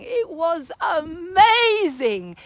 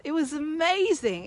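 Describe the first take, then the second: First: Slow, choked-up amazement; near tears. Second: Said in the usual way. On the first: Real, not acted. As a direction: let it catch in the throat. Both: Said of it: "repeated with feeling".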